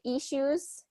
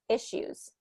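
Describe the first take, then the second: First: The first vowel is a long 'ee' sound. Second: The first vowel is a short 'i' sound. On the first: The speaker calls it wrong. "instead of issues, e with that e" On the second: The speaker calls it right. "keep it with a short I"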